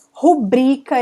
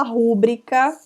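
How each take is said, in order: First: Rubrica with BRI strong; stress on BRI. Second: Rúbrica with the beat first, on RÚ; stress on RU. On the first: Shown as a demonstration. Teacher giving the correct form, Rubrica stressed on BRI. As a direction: say Rubrica as ru-BRÍ-ca. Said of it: "esse aqui é um erro muito comum". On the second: Retold or imitated. Teacher quoting a common mistake, rúbrica stressed on RU. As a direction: say rúbrica as RÚ-bri-ca. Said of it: "muita gente fala rúbrica".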